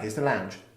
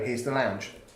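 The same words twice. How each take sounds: First: It is said briskly and quickly. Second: It is said slowly and drawn out.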